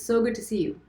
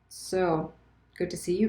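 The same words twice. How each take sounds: First: The voice sounds warm, open and excited. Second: The voice sounds sarcastic, annoyed and blaming. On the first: The speaker is genuinely glad to meet. "I sound sincere, open, excited, friendly" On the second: The speaker resents having waited so long. "I sound sarcastic, annoyed, blaming a little bit"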